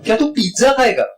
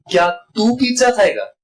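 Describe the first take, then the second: First: pizza punched high, तू kept short; stress on pizza. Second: तू stretched and lifted high; stress on तू. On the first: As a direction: underline pizza with a raised voice. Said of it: "दूसरा है". (Pizza पर ऊँचे सुर में ज़ोर) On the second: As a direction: underline तू with a raised voice. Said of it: "पहला ये है". (तू पर ऊँचे सुर में ज़ोर) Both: Shown as a demonstration.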